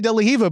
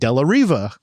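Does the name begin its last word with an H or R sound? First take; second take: H; R. First: The last word starts with an H sound. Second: The last word starts with an R sound. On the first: The speaker calls it wrong. "I always add the uh, the H instead of the R" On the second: The speaker calls it right. "it's an R"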